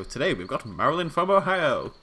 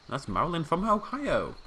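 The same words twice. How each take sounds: First: Louder, higher host call, OHIO stretched; game show host. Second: Game show host. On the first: Player re-announces the guest as a game show host. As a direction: sell Ohio like a prize winner. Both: Pretend. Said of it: "Sounds like I'm presenting a game show".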